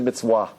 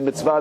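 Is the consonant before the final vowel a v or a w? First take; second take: w; v. First: The second syllable starts with a w sound. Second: The second syllable starts with a v sound. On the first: "they say a W there" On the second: This is the usual pronunciation. "They don't say mitzvah"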